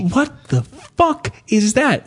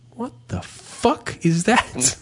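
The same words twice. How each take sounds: First: Slower, stunned repeat of the stranger's line; bewildered shopper again. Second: Bewildered shopper. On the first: Man with a full cart blurting at the wife's moves, drawn-out stunned voice. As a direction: drag it out like the stranger staring. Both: Retold or imitated. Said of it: "I heard him say".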